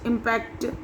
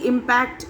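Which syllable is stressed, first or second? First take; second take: second; first. First: The stress is on the second syllable. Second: The stress is on the first syllable. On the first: It is used as a verb. "जब हम as a verb use करते हैं तो last के syllables" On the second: It is used as a noun. "When the word is used as a noun, the stress is on the first syllable"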